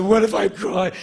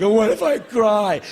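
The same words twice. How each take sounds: First: Put-on high worried child voice; anxious little kid. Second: Put-on high, louder childish fret; anxious little kid. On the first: Boy pressing his mom again, worried child. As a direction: worry aloud like a small boy. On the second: Little boy asking his mom, anxious child voice.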